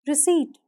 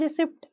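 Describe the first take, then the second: First: रिसीट as ri-seet, no p sound before the t; silent p. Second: रिसिप्ट with a clear p sounded, ri-sipt; common wrong pronunciation. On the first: Teacher models रिसीट with the p silent. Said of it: "यहाँ पर पी silent होगा". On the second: Teacher imitates the mistake, रिसिप्ट with the p sounded. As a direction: say रिसिप्ट pronouncing the p, as people wrongly do. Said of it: "लोग कह देते हैं रिसिप्ट". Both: Shown as a demonstration.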